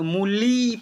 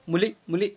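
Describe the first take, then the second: First: मूली with the final "lee" stretched out; long final vowel. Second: मूली with the final "li" cut short; short final vowel. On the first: Teacher showing the big matra, मूली with a drawn-out ending. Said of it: "बड़ी यू का मात्रा लग जाए". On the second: Teacher showing the lesser vowel, मूली said short. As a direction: say मूली quickly, barely holding the last vowel. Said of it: "इसका थोड़ा कम उच्चारण करेंगे". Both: Shown as a demonstration.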